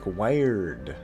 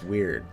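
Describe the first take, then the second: First: The word sounds like 'wired', with a long i. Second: The word is said the usual way, as 'weird'. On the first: The speaker calls it wrong. "pronouncing it strange" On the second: The speaker calls it right. "it's just weird"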